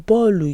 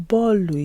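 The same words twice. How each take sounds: No difference in how they are said.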